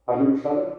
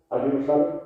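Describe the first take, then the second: No difference in how they are said.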